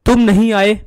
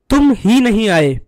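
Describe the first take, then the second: First: Said in the usual way. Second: ही pressed with clear weight; stress on ही. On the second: Shown as a demonstration. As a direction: lean on the word ही to show emphasis. (ही शब्द पर ज़ोर) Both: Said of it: "दूसरे वाक्य में एक विशेष प्रकार का बल".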